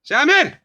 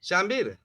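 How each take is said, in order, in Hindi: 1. नाम तेज़, कठोर आवाज़ में पुकारा जाता है। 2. नाम मीठी, कोमल आवाज़ में पुकारा जाता है। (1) "जब हमने जोर से बोल दिया तो पीछे खसक गए" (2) "पहले वाला जो शब्द था वो प्रिय था, मीठा था।"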